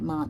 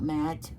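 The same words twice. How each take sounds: First: "matte" with a long open ah; "matte" with the vowel of father; own pronunciation of matte. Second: "matte" with a short front a, as in cat; "matte" with a flat a, as in mat; rejected pronunciation of matte. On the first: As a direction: say "matte" like "maht". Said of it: "I call it matte". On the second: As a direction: say "matte" to rhyme with hat. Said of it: "not matte". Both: Shown as a demonstration.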